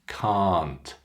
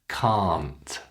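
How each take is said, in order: Both takes have the same delivery.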